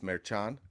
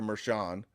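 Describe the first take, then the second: First: The name is said with a hard 'ch' sound. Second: The name is said with a soft 'sh' sound. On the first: This is the Spanish way of saying the name. The speaker calls it right. "but it's Merchan" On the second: This is the Americanized way of saying the name. The speaker calls it wrong. "we just hear Mershan, right? We Americanize it"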